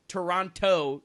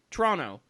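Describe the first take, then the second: First: The second t is clearly pronounced. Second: The second t is dropped. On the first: The speaker calls it wrong. "You don't say the Toronto" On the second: The speaker calls it right. "they say Toronto"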